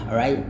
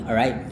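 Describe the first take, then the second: Both takes have the same delivery.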